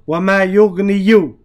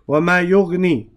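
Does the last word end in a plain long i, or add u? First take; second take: added u; long i. First: The verb ends with an added u vowel. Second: The verb ends in a plain long i sound. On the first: The speaker calls it wrong. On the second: The speaker calls it right.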